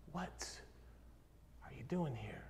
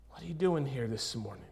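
First: Hushed whisper. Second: Said in the usual way. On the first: Acted. God asks Elijah by name in the cave, hushed whisper. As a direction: drop to a near-whisper, pause after "What". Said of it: "He's beginning to whisper your name". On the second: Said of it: "ask the very thing that he asked Elijah".

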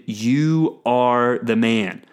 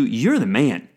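First: Slow and grave, stress on You; solemn accusation. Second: Light, quick "You're the man," as praise; casual compliment. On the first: Prophet Nathan accusing King David, slow and grave. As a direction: say "You are the man." slowly, leaning hard on You. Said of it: "Now, usually if somebody told you". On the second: Friend praising you, casual and upbeat. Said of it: "usually if somebody told you". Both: Shown as a demonstration.

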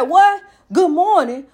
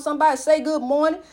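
First: A loud, snappy What then a grudging good morning; grumpy greeting. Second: Said in the usual way. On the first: Retold or imitated. Drinker snapping back at a friendly hello, irritable. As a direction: bark the greeting back like you're hungover and annoyed. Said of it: "you didn't say it right". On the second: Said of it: "'Cause see how you say good morning".

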